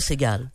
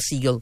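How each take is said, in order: First: The name is pronounced the French way. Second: The name is pronounced the English way. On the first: This is how it should be said in Quebec. "Mais au Québec, appelle-moi Segal" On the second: This is how people in the United States say it. "si je suis aux États-Unis et que je me présente à un comptoir"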